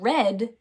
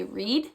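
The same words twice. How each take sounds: First: "read" said as red, with a short eh. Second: "read" said as reed, with a long ee. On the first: Teacher offering the other correct answer, short E. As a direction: say "read" to rhyme with bed. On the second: Teacher checking the pupils' answer, long E. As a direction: say "read" to rhyme with need. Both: Shown as a demonstration. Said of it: "could be said read or read".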